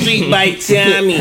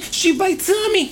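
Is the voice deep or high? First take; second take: deep; high. First: The voice is low and deep. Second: The voice is raised and high. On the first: "I started off with a deep voice" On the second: "went to the high voice"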